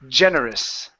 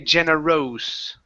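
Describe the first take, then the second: First: The last syllable has a schwa vowel. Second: The last syllable has an 'oh' vowel. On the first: The speaker calls it right. "sort of like a short I or even a schwa" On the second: The speaker calls it wrong. "We don't want to say generose"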